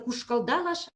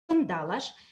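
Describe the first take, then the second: First: The suffix consonant is an l sound. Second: The suffix consonant is an n sound. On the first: This is the standard literary form. "вместо «кушкалдалаш»" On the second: This is the regional dialect form. "там говорят «кушкандалаш»"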